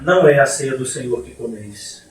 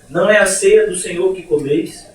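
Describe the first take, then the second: First: It ends with a fall, like a statement. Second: It ends with a rise, like a question.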